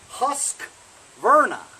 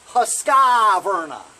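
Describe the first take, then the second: First: No vowel is heard between the Q and V. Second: An extra 'ee' vowel comes between Q and V. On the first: The speaker calls it right. "There's no I in between the Q and the V" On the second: The speaker calls it wrong. "not Husqvarna"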